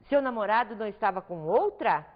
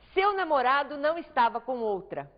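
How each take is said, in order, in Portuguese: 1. É uma frase inteira com entonação de pergunta, que sobe no final. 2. É uma afirmação única, firme e plana, que cai no final. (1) "agora de dúvida" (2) "uma entonação afirmativa, categórica"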